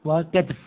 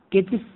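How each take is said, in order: First: وكتف said "wa-katf", a after the k; no vowel after t in وكتف; katf form. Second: كتف said "kitf", i after the k; one syllable, no vowel after t in كتف; kitf form. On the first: Teacher shows other variant to class, pronounced katf. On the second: Teacher shows allowed variant to class, pronounced kitf. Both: Shown as a demonstration. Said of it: "فيجوز أن نقول".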